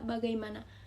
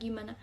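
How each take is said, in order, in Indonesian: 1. Kata itu diucapkan lengkap, empat suku kata. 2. Kata itu diucapkan singkat, tiga suku kata. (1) "Contoh lafal baku" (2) "Contoh lafal tidak baku"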